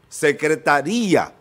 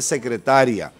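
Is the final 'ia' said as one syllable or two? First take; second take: two; one. First: The final 'ia' is split into two syllables. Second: The final 'ia' is joined into one syllable. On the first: "Una tilde que rompe el diptongo" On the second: "cuando no se pone eso, dice secretaria"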